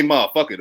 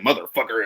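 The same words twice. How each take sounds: First: MOTHERFUCKER the local way, slurred short with the R's dropped; local pronunciation. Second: MOTHERFUCKER fully sounded, lower; full pronunciation. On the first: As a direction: say motherfucker loose and run together. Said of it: "we'll say motherfucker". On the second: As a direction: say motherfucker carefully with every syllable and R. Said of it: "Like, we don't say, like". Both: Shown as a demonstration.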